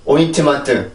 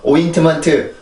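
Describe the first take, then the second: Both takes have the same delivery.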